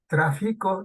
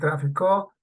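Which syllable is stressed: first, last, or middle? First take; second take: middle; last. First: The stress is on the middle syllable. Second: The stress is on the last syllable. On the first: It is the present-tense verb form. "del verbo traficar" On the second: It is the past-tense verb form. "el mismo verbo pero en pasado"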